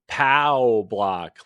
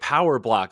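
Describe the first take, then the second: First: The first word has one syllable, like pow. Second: The first word has two syllables, like power. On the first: The speaker calls it right. "It's POW block" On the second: The speaker calls it wrong. "why is everybody calling it Power Block lately?"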